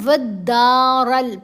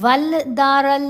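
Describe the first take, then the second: First: No l is heard; the d is doubled. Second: An l sound is heard before the d. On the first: The speaker calls it right. "फिर यहाँ हमने वद्दारल पढ़ा" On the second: The speaker calls it wrong. "वल दारल नहीं पढ़ा गया"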